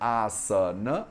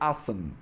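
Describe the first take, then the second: First: The word ends with a short final vowel. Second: The word ends on a consonant, no final vowel. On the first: "a palavra asana" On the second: "a gente fala como asan"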